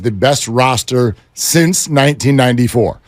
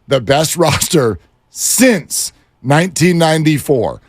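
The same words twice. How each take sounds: First: The phrase is said at a normal speed. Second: The phrase is said slowly and deliberately.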